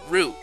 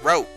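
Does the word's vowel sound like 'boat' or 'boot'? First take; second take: boot; boat. First: The vowel sounds like the one in 'boot'. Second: The vowel sounds like the one in 'boat'. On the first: This is how most people say it. "like most people I know, oh, pronounce it root" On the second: A compromise between two common pronunciations. "my way of meeting down the middle, saying it like rope"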